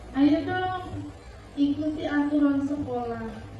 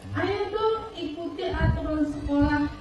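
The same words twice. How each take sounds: First: It is spoken at a slower, gentler pace. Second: It is spoken at a normal, quicker pace. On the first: The speaker acts as a friend to the student. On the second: The speaker acts as a monitor enforcing rules.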